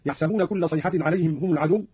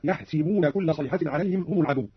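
First: Said in the usual way. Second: "يحسبون" said "yahsiboona"; an i after the s in "يحسبون"; kasra on seen. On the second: Shown as a demonstration. (كسر السين في "يحسبون") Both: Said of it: "قرأ قالون بكسر السين".

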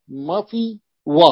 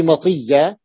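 First: "مطي و" slow, with a gap before و; underlying form, split. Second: Said in the usual way. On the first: Shown as a demonstration. Teacher showing the word's origin, slowly split. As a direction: separate و from "مطي" instead of merging it. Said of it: "في الأصل هي مطي و". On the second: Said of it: "يعني الياء هذه مطية".

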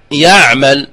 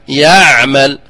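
First: يعمل with the ain choked off; wrong demo. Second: يعمل with the ain half open, between closed and flowing; correct middle ain. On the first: Teacher demos the wrong closed ain. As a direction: imitate the sound stopping dead in يعمل. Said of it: "لا نقول يعمل". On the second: Teacher demos the correct balanced ain. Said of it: "فهذا التوسط بينهما". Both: Shown as a demonstration.

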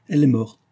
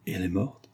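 First: Higher, louder falling statement; emphatic confirmation. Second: Softly voiced, fearful question; hushed dread. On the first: Vera answers Marianne's question, emphatic confirmation. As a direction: confirm it firmly, as a fact. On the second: Marianne asks about the girl's fate, hushed dread. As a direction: ask it softly, dreading the answer. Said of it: "s'écria Marianne en frissonnant". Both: A narrator's reading.

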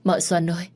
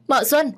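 First: Calling Mợ Xuân ơi across the yard, only slightly raised. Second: High, loud panicked yell of mợ Xuân; shouting. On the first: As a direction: start the call before the real yell. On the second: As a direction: scream her name to make her come running. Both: Acted. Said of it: "dì Năm hét lớn".

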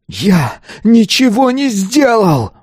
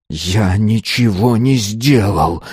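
First: Slow, very high outcry; desperate scream. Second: Slow, tense growled denial. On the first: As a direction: scream the denial, stretching every word. Pupil's denial becomes a scream. (отчаянный протяжный крик) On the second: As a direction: growl each word through clenched teeth. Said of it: "прорычал Азар". (сдавленный рык, медленно) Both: A narrator's reading.

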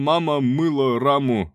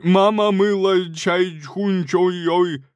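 First: Mock accent. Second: Loud, high, slow fake-Chinese chant; louder mocking. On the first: Mocking fake Chinese. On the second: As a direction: shout the gibberish louder. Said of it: "Громче".

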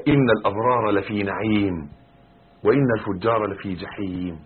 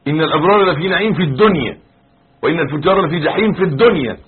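First: Measured, restrained Quran quotation; measured recitation. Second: Loud, high-pitched insistence landing on الدنيا; stress on الدنيا. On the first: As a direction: recite the verse evenly, without pushing. Verse recited before his commentary. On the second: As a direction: drive home الدنيا as a forceful correction. Emphatic correction: in this world. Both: Shown as a demonstration.

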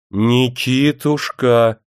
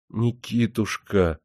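First: Louder, drawn-out whiny call; capricious raised voice. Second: Plaintive pleading. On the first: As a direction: raise the voice like a spoiled wife. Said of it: "капризно повысила она голос". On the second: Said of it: "жалобно взмолилась жена". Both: A narrator's reading.

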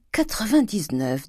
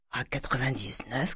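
First: High, slow savouring; pleased relish. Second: Soft, rising question; hushed questioning. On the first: Grandet savouring the bond price at the door, pleased relish. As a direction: draw out the figure with relish. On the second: Grandet checking the bond price with Cruchot, hushed question. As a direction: repeat the figure softly, testing it. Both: A narrator's reading.

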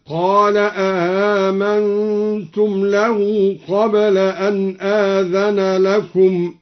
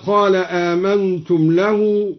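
First: آمنتم said a-amantum with two glottal stops; two hamzas, questioning. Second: Said in the usual way. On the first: Shown as a demonstration. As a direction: ask it: آمنتم with a double hamza. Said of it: "بهمزتين على الاستفهام هكذا". (أَآمنتم بهمزتين استفهامًا) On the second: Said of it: "قرأ الدوري بهمزتين على الاستفهام".

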